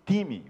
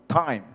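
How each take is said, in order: First: It is said with a Portuguese pronunciation. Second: It is said with an English pronunciation.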